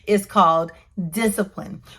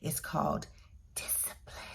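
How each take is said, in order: First: It is said louder. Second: It is said at a normal, quieter volume.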